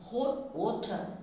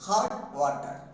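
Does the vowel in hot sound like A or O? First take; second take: O; A. First: The vowel in hot sounds like an O. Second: The vowel in hot sounds like an A. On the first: The speaker calls it right. "No, hot water" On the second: The speaker calls it wrong. "we are pronouncing it as a hot water"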